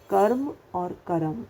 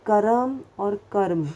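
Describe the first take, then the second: First: कर्म said two ways, one with full र as करम, one with half र; contrast repeated. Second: First कर्म with full र, second कर्म with half र; contrast of pronunciations. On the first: Teacher repeating the कर्म contrast for the class. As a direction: repeat कर्म both ways, ending on a rise. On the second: Teacher contrasting two ways of saying कर्म. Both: Shown as a demonstration. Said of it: "आपको बोलने में ही फ़र्क आ जाएगा".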